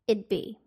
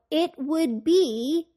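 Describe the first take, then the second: First: Would is contracted to a d sound. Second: Would is said in full.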